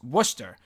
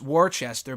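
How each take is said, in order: First: The name is said not following its spelling. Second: The name is said following its full spelling. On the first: The speaker calls it right. "but it's pronounced Worcester" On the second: The speaker calls it wrong. "you would think it's Worcester"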